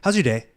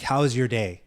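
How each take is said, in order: First: It is said quickly and carelessly. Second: It is said slowly and warmly.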